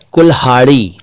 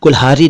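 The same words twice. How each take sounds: First: कुल्हाड़ी with a retroflex flap ड़; correct flap ड़. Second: कुल्हारी with plain r; wrong r for ड़. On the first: Teacher models a word for learners, कुल्हाड़ी with flap ड़. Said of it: "कुल्हारी नहीं". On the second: Teacher rejects this version, कुल्हारी with plain r. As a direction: say कुल्हारी with र, no flap. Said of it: "नहीं". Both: Shown as a demonstration.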